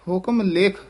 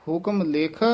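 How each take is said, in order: The two takes are said the same way.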